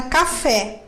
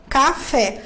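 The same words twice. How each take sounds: First: Said in the usual way. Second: "Café" split into two syllables, ca-fé; syllable division. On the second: Shown as a demonstration. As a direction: say "Café" as two distinct beats, ca, fé. ("Café" separado em duas sílabas, ca-fé) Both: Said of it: "tenho duas sílabas".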